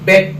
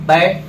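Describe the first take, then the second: First: बेट with a closer, short 'e', as in English bet; E vowel. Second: बैट with an open 'a', as in English bat; open A vowel. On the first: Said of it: "नीचे ई है". (बेट में छोटा 'ए' स्वर) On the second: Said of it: "ऊपर ए है". (बैट में खुला 'ऐ' स्वर) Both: Shown as a demonstration.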